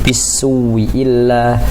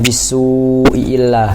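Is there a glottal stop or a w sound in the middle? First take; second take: w sound; glottal stop. First: A w sound is heard in the middle. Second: A glottal stop is heard in the middle. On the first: "hamzah pertama menjadi waw" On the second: "aslinya bisu'illah"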